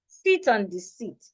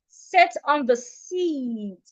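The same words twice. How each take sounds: First: Sit and seat have nearly the same vowel. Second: Sit and seat have clearly different vowels. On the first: The speaker calls it wrong. "as a Nigerian, I would ordinarily want to say ... which is wrong" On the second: The speaker calls it right. "The first one with the I should be sit"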